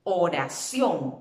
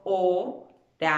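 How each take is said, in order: First: Oración as one slow word, CIÓN stretched; stress on last syllable. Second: O-ra-ción, slowly, a pause after each syllable; spelled by syllables. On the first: Teacher showing where the voice falls, stressed oraCIÓN. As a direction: lean hard on the final ción of oración. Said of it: "Dónde está la mayor fuerza de voz". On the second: Teacher dividing the word for pupils, oración syllable by syllable. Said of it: "la voy deletreando". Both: Shown as a demonstration.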